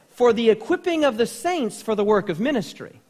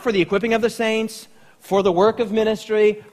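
First: It flows without a pause after saints. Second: There is a pause after saints.

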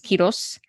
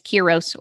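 First: The name is said with Spanish sounds. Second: The name is said with English sounds. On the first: "if you pronounce it properly in Spanish" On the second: "my last name is Quiros"

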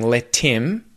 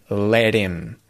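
First: The t in 'let' is a clear t. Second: The t in 'let' sounds like a d. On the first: "I'm not saying let him" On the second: "I'm saying let him"

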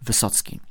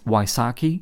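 First: The surname is given a Polish-style pronunciation. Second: The surname is given an American-style pronunciation. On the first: "because it's a Polish surname, I always say Jonathan Wysocki" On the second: "I think in America they pronounce it as Wysocki"

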